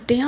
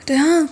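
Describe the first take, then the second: First: Said in the usual way. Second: Sudden loud shout of the name call, pitched up. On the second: Retold or imitated. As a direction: yell it out sharply to stop her. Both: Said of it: "கத்துனேன்".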